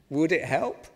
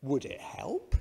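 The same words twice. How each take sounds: First: Said in the usual way. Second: Put-on calm accented reply, barely moved; a touch of a Russian accent, unfazed; mild Russian accent. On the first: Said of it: "I'm not gonna do the accent". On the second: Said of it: "Same reply".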